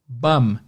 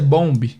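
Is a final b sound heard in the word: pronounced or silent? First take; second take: silent; pronounced. First: The word ends in m with no b. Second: The word ends with an audible b sound. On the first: This is how people really say it. The speaker calls it right. "na vida real, o pessoal vai pronunciar bum" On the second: This is how the spelling suggests it sounds. The speaker calls it wrong. "na nossa cabeça, a pronúncia é bomb"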